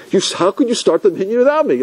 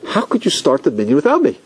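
First: A mild mock yell, pitched higher; mock screaming. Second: Said in the usual way. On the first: Latecomer yelling at the gabbai in front of everybody, mild mock yell. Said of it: "he started screaming". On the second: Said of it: "He said".

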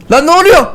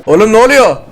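First: Shrill panicked question; alarmed. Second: Said in the usual way. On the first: Real, not acted. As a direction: yelp it in sudden alarm. Rocket suddenly falling.

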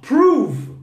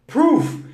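First: Prove said high and loud with a long V at the end; verb prove demo. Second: Proof raised high and hit hard as the noun; contrast noun proof. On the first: Teacher shows the student the verb: Prove with a clear V. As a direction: land on the buzzing V of Prove. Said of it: "seria assim, ó". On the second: Teacher correcting a student's mistake: Proof lifted high and stressed. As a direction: punch Proof to set it apart from the verb. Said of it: "não é o verbo". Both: Shown as a demonstration.

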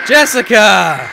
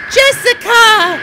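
First: Loud, stretched call in own voice; playful calling out. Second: Very high, stretched mock call; put-on calling voice. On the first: Pretend. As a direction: holler the name slowly at normal pitch. Calling out to imagined Jessica. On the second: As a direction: call out loudly in a silly falsetto. Playing someone calling Jessica.

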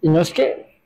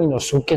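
First: "Inosuke" with the u dropped, ee-NOS-keh; silent-u pronunciation. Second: "Inosuke" with every vowel sounded, ee-no-SU-keh; full-u pronunciation. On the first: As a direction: say "Inosuke" as three syllables, swallowing the u. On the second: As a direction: say "Inosuke" as spelt, with a clear u. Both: Shown as a demonstration. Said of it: "yo siempre le digo Inosuke".

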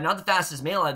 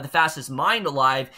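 First: Said in the usual way. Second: "mind" stressed to correct a slip. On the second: Real, not acted. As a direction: put the weight on "mind", as a correction.

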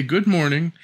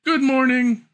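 First: Said in the usual way. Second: High, louder greeting called across the room; calling out. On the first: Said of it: "don't forget to say". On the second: Acted. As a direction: call it out to the grandmother. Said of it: "She called out".

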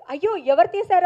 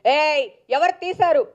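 First: Said in the usual way. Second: Loud, slow, stressing ఎవరు; harsh demand. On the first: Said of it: "మీరు కావాలంటే నా voice చూడండి". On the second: Shown as a demonstration. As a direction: bark out ఏయ్ ఎవరు తీశారు as a rude demand. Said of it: "అని లేదు అక్కడ". (గట్టిగా గద్దించి అడగడం)

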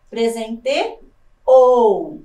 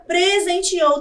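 First: Presenteou very slow, pause before a loud long OU; stress on final syllable. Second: Said in the usual way. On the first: Shown as a demonstration. Teacher shows an oxytone, Presenteou slowed with loud held OU. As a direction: split Presenteou and push out the final OU. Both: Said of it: "também é uma palavra oxítona".

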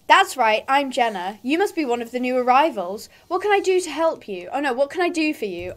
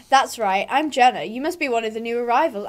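First: Lightly voiced auntie. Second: Lightly voiced stable hand, close to own voice; Justin's voice. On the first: Auntie greeting a new arrival, lightly put-on auntie voice. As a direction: welcome them like an auntie, lightly acted. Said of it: "like, an auntie voice". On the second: Greeting a new arrival, slipping into Justin's voice. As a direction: greet the newcomer in a lightly put-on voice. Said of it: "I'm doing Justin's voice".

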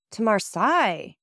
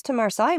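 First: Drawn-out, mildly startled exclamation; understated cry of surprise. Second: Said in the usual way. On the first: A narrator's reading. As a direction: echo the place name in mild surprise. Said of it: "exclaimed the young couple".

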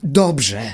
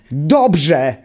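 First: Angry yell. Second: Enraged shriek of dobrze!”; furious yell. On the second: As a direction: explode on the repeated dobrze!”. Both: A narrator's reading. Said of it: "wrzasnął zapamiętały w gniewie".

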